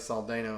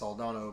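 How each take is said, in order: First: It is said the Southern US way. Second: It is said the standard, original way.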